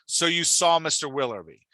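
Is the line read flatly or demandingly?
demandingly. It is read as a forceful demand.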